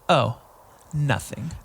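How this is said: It is said in a sassy, pointed tone. Something is actually wrong. "I'm not like a sassy lady where I'm like oh nothing"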